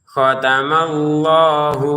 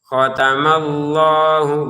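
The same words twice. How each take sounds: Both takes have the same delivery.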